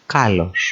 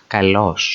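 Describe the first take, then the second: First: Kalos with the stress on the opening KA; kalos, weight on the first syllable. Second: Kalos with the stress on the final LOS; kalos, weight on the last syllable; stress on second syllable. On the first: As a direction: say kalos as KA-los. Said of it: "whereas in green". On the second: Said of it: "Underline is the syllable that takes the emphasis". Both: Shown as a demonstration.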